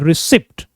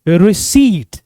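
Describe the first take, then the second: First: The p sound is pronounced in the word. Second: The p sound is silent in the word. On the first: The speaker calls it wrong. "लोग commonly मिस pronounce कर देते हैं" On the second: The speaker calls it right. "The correct pronunciation is रिसीट। पी silent होता है"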